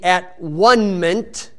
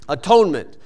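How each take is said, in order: First: The word is broken into three separate parts. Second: The word is said smoothly as one unit. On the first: "if you divide it at the at and after the E" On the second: "if you just pronounce it that way"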